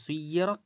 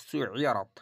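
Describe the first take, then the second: First: সুইয়রাত said with rising pitch, without the Ain sound; first reading. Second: সুইয়রাত said falling, with the Ain in it; second reading. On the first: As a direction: read সুইয়রাত plainly, no throat sound. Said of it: "তাহলে এটা হলো সুইয়রাত". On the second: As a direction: give সুইয়রাত the Ain throat sound. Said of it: "আর এটা হচ্ছে সুইয়রাত". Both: Shown as a demonstration.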